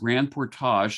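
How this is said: The name is said with French pronunciation.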